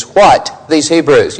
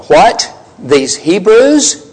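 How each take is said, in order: First: Said in the usual way. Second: Stunned, slow, rising "What? These Hebrews?"; as if the words just left them, slow and incredulous; speechless disbelief. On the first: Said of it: "The expression they use here is". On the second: Acted. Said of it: "Or maybe their speech just left them".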